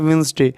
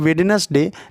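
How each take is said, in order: First: The first d and the middle e are dropped. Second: The first d and the middle e are sounded. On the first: This is how the word is actually said. The speaker calls it right. "लेकिन होता है वेंसडे" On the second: This follows the spelling letter by letter. The speaker calls it wrong. "ऐसे वे बोलने के लिए वेडनेसडे"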